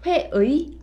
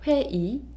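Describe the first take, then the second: First: The last syllable is said with the 'ui' glide. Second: The last syllable is said as a plain 'i'. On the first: The speaker calls it wrong. "회의 아니고요" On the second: The speaker calls it right. "이로 발음해요"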